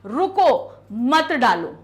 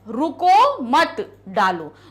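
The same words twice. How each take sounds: First: There is a pause after the first word. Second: There is a pause after the second word. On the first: The listener is told to stop and not put it in. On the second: The listener is told not to stop but to put it in.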